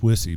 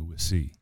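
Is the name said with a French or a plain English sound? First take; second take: plain; French. First: The name is said in plain English. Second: The name is said with a French-style pronunciation. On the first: This is the everyday form of the name. "my name's Wissy" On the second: This is the charming form used by admirers. "The French pronunciation"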